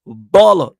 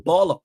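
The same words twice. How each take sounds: First: Baller belted out much louder; emphatic loud repeat. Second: Said in the usual way. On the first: Real, not acted. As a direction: hit Baller hard and loud like a chant. Repeats praise for Amad Diallo.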